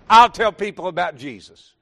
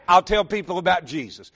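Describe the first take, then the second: First: Louder preached refrain. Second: Said in the usual way. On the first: Acted. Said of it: "repeated refrain, second louder". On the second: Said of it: "repeated refrain, first take".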